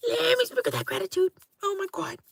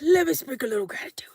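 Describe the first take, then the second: First: A much higher, quick, sing-song blessing. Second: A fast, whispered blessing; quick whisper. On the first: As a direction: toss the gratitude out in a lifted put-on voice. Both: Pretend. Blessing viewers before bed.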